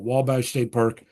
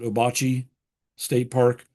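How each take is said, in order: First: The name sounds like the word Wabash. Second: The name sounds like oh-bah-chee, three syllables. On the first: "some people call it" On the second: "most people would pronounce it"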